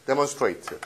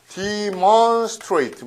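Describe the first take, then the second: First: Said in the usual way. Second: "demonstrate" drawn out slowly, higher, part by part; slow teaching take of "demonstrate", pitched up; emphatic breakdown. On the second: Shown as a demonstration. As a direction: stretch out each part of "demonstrate" for a class. Teacher breaks the word into parts.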